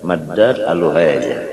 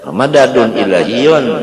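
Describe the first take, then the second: First: The words are said without their case endings. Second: The words are said with their full case endings. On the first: The speaker calls it wrong. "Jangan dibaca madad aluhaja" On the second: The speaker calls it right. "gitu orang madadun ilahiyun"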